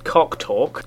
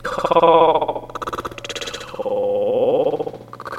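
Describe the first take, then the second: First: Said in the usual way. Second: "cock talk" stretched out very long; slow-motion edit on "cock talk"; drawn-out stretched playback. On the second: Pretend. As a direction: drag each word of "cock talk" out, rising at the end. Mashup stretches the repeated phrase.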